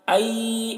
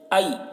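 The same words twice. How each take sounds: First: It is said slowly and drawn out. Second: It is said quickly and softly. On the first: The speaker calls it wrong. "ऐसे नहीं।" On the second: The speaker calls it right. "ऐसे जल्दी बोलेंगे और मारूफ बोलेंगे बोलेंगे नरमी से।"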